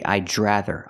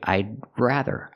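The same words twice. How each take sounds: First: The D and R blend into a J sound. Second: The D is stopped, then the R follows. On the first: The speaker calls it wrong. "I cannot say, ... We cannot combine the D in I'd and the R in rather and make the sound J" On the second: The speaker calls it right. "We say I'd, make the stop D, and then you make the R"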